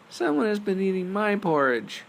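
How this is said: It is said in a tiny, high voice. "cried out in his tiny little voice"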